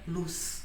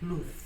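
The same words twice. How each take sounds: First: The word ends in an s sound. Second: The word ends in a th sound. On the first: "E na América, ... L U S" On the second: "como pronunciar na Espanha luz ... este símbolo, que é como um zero com um tracinho no meio"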